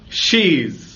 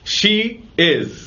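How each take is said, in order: First: The two words merge into one short syllable. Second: Both words are said separately in full.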